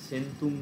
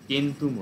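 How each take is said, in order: First: The word begins with an s sound. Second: The word begins with a k sound. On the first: The speaker calls it wrong. "লাতিনে সেন্তুম না হয়ে" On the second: The speaker calls it right. "কেন্তুম হচ্ছে"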